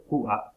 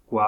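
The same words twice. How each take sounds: First: "kua" split by a glottal stop before the a. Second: Said in the usual way. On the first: Shown as a demonstration. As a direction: cut "kua" into ku-a. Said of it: "kua cintura". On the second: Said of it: "Kua agujero".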